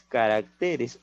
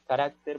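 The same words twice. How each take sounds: First: "caracteres" con la fuerza de voz en TE; acento en caracteres. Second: "carácter" con la fuerza de voz en RÁC; acento en carácter. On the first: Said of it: "Ojo, ¿ah?". (sílaba tónica TE en "caracteres") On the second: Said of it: "el acento cambia". (sílaba tónica RÁC en "carácter") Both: Shown as a demonstration.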